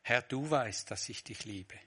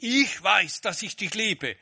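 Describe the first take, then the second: First: Said in the usual way. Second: Higher and louder, boastful: "Ich weiß"; proud claim. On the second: Shown as a demonstration. Preacher mimics a boastful Peter, loud proud claim. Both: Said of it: "Er sagt nicht".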